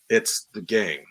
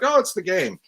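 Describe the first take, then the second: First: It is said slowly and heavily. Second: It is said quickly and lightly.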